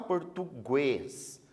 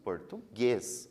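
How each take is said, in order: First: A u sound is heard after the g. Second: No u sound is heard after the g. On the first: The speaker calls it wrong. "A gente não fala" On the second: The speaker calls it right. "nós falamos"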